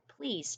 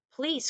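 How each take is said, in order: First: Softer, courteous please; polite please. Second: Pleading cry. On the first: Shown as a demonstration. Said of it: "That was very polite of Frog". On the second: A narrator's reading. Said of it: "cried Frog".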